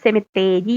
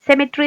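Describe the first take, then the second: First: Every syllable is said fully, giving semitheri. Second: The middle vowels are dropped, giving semitree. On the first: The speaker calls it wrong. "സെമിത്തേരി എന്ന് പഠിച്ച എളുപ്പത്തിന് വേണ്ടി" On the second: The speaker calls it right. "സെമിട്രി എന്നുള്ളത് നമ്മൾ എങ്ങനെ പഠിച്ച?"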